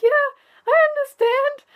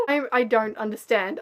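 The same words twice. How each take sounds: First: Much higher, chirpy pretend agreement; fake cheerful. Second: Said in the usual way. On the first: Pretending to understand someone explaining, fake chirpy voice. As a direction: squeak out a bright fake yes. Faking understanding when worried.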